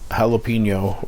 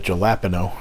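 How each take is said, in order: First: It is said the usual, non-regional way. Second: It is said the way people say it in Nova Scotia.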